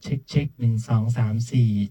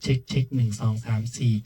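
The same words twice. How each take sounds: First: The voice has only a little treble. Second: The voice has the treble turned fully up. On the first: "เดี๋ยวผมก็จะพูดแล้วก็จะเร่งขึ้นทีละนิด" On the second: "อันนี้ก็จะเป็นจังหวะเสียงแหลมสูงสุด"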